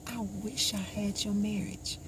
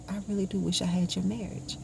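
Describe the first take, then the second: First: Said in the usual way. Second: "do" pushed up with a rising tune to insist; stress on do. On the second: Retold or imitated. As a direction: lean hard on "do", insisting. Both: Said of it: "Grace, really?".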